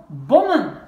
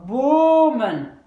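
First: BOMMEN avec un O bref, «bom-men»; O court. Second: BOMEN avec un O très étiré, «boo-men», plus fort; O long. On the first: (BOMMEN, première voyelle brève) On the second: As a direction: allonger fortement le O de BOMEN. (BOMEN, première voyelle longue) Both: Shown as a demonstration. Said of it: "Pour que ça reste court".

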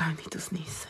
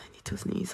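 First: Breathy whisper before a sneeze. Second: Whispered, sneeze building; hushed whisper, nose tickling. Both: Real, not acted. About to sneeze.

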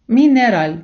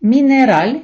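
First: Мінераль read slowly, falling at the end, stress on the last syllable; second take of мінераль, falling; slow model word. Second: Мінераль read slowly, rising at the end, stress on the last syllable; first take of Мінераль, rising; slow model word. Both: Shown as a demonstration. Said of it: "я буду читати повільно, робити паузу".

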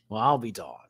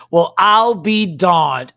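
First: Said in the usual way. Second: Loud, slow, higher punchline delivery; exaggerated exclamation. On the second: Shown as a demonstration. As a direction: belt it out and stretch it like a big punchline. Trying out the pun loudly.

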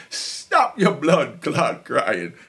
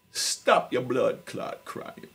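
First: Slow, louder Jamaican patois on "blood clot crying"; loud Jamaican scold. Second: Slow, breathless Jamaican patois on "blood clot crying"; whispered Jamaican scold. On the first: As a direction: bark it out slowly like a Jamaican mother. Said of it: "my mother tell me". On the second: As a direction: hiss it slowly in a Jamaican mother's voice. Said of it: "her exact words". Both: Retold or imitated.

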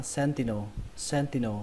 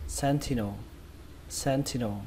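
First: Sentinel said as SEN-ti-no, T without a puff; "sentinel" with middle syllable "tì"; hard unaspirated T in the middle of sentinel. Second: Sentinel said as SEN-thi-no, with a puffed T; "sentinel" with middle syllable "thì"; aspirated T. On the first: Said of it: "đọc chữ thì này thành chữ tì". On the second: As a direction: stress SEN in sentinel, then an airy "thi". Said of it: "Âm thứ hai các bạn đọc là thì". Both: Shown as a demonstration.

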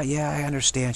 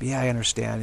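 First: Higher, sweet mock-mom reply; mother humoring her kid, higher and sweet; nice cop mom. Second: Said in the usual way. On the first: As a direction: play the agreeable mom saying yeah, I understand. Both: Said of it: "She plays the nice cop".

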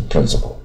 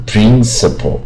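First: "principle" with short first i, light ending; brisk "principle", short lax vowels; correct pronunciation. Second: "principal" with a long "preen" start; "principal" wrongly tense and stretched at the start; mispronounced. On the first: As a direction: say "principle" quickly as "PRIN-suh-pl". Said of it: "都念成principle". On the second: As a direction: draw "principal" out as "preen-suh-pol". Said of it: "不要念成principal". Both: Shown as a demonstration.

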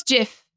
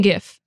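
First: JIF said with a j sound; soft g. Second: GIF said with a hard g. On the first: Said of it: "I know it's jif". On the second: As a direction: say gif as in gift. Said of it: "I like saying gif". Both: Shown as a demonstration.

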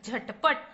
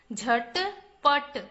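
First: Said in the usual way. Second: झटपट stretched slowly as झ-ट-प-ट; syllable by syllable. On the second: Shown as a demonstration. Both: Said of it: "चलिए बच्चों, पढ़ते हैं।".

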